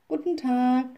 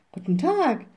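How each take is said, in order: First: Lightly voiced children, a bit higher; children's greeting. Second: Higher, lightly called greeting. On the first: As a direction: greet politely as two children. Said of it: "sagten sie". (leicht angedeutete Kinderstimmen beim Grüßen) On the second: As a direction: call the greeting back as the witch. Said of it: "rief die kleine Hexe". (leicht gerufener Gruß, höher) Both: A narrator's reading.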